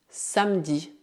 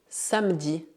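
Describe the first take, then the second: No difference in how they are said.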